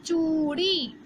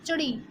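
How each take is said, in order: First: चूड़ी with a long stressed ऊ. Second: Churi with a quick short उ. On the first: Teacher giving the correct long vowel in चूड़ी. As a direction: hold the ऊ in चूड़ी. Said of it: "हमें क्या बोलना है". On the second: Teacher showing the wrong short vowel in Churi. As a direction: clip the उ in Churi. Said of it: "मैं इस पे जोर नहीं देती". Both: Shown as a demonstration.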